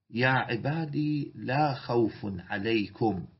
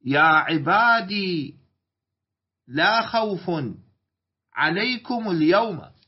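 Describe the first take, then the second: First: يا عبادي لا خوف عليكم read slowly, stress on لا; teacher reads the verse from the mushaf. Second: يا عبادي slow and louder, stress on عبادي; teacher recites the verse for the students; louder Quran quote. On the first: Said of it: "ممكن يلاحظ المصحف". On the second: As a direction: recite يا عبادي لا خوف عليكم اليوم firmly. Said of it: "وفي قراءة". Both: Shown as a demonstration.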